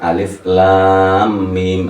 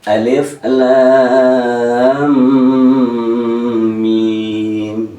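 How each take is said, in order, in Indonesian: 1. Bunyinya ditahan terlalu sebentar. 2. Bunyinya ditahan dengan panjang sedang. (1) "ini kurang ya, karena mimnya itu gunnah" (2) "Kalau umumnya yang sedang"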